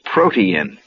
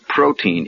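First: It is said as three syllables, pro-tee-in. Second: It is said as two syllables, pro-teen. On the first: The speaker calls it right. "It is protein. ... It's P-R-O-T-E-I-N" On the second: The speaker calls it wrong. "it is not protein"

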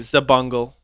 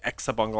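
First: The name begins with a plain z sound. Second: The name begins with an eks sound. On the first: "Some people say Zabungle" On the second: "Some people say Exabungle"

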